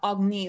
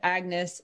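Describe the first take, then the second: First: The name is said in a fancy style. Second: The name is said in a plain style. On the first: This is how her pretentious royal family says it. The speaker calls it wrong. "not Agni, like her pretentious royal family does" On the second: This is how the character wants her name said. The speaker calls it right. "She requires that you pronounce it Agnes"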